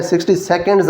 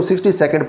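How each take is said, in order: First: "सेकंड्स" with an added final s sound; plural ending. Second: Said in the usual way. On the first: Shown as a demonstration. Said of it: "आपने इसको नहीं कहना". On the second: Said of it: "पढ़ना है".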